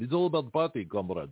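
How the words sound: It is said in a put-on Russian accent.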